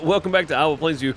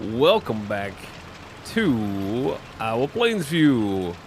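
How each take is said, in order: First: It is said in a plain, calmer way. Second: It is said like an energetic game show host.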